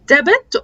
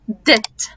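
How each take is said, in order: First: A B sound is heard before the T. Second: No B sound is heard before the T. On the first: The speaker calls it wrong. "احنا معظمنا بيقول" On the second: The speaker calls it right. "انا ما بنطقش البي"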